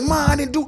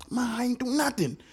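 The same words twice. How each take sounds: First: Said in the usual way. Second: Put-on higher, softer kid character voice; lightly voiced whining boy. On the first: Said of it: "Hold on, let me catch his voice". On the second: Shown as a demonstration. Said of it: "let me catch his voice".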